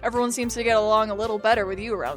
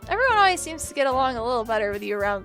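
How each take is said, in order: First: It is said in the main character's voice. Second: It is said in another character's voice.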